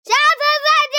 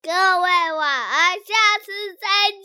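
First: It is said very loudly. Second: It is said softly and gently.

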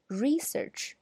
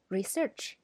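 First: The stress is on the first syllable. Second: The stress is on the second syllable. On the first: It is used as a noun. "它的名词形式，刚才我读的那个要读research" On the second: It is used as a verb. "那么动词形式呢，则要读research"

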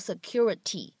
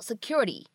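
First: The t is a clear, crisp t sound. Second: The t is a soft flap, like d. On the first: The speaker calls it wrong. "这个单词它不需要读成security" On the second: The speaker calls it right. "你就读成security，就有一点像是介乎于t 跟d 之间的感觉"

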